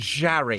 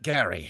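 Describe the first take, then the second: First: The name begins with a soft G sound. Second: The name begins with a hard G sound. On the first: The speaker calls it right. "It's a soft G" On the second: The speaker calls it wrong. "my name isn't Gary"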